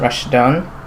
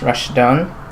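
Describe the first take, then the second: First: The name is said with Arabic sounds. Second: The same.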